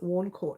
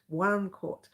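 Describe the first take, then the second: First: The first word sounds like 'warn'. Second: The first word sounds like 'one'. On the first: This is how the speaker says the name. "and I pronounce it Warn Court" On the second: This is how another person says the name. "I think he pronounced it one court"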